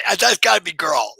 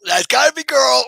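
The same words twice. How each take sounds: First: Louder, eager guess; excited guess. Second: Higher, louder repeat of the guess; more excited. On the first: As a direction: lean in, thrilled. Guessing who joined, excited. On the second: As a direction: push it up with delight. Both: Real, not acted.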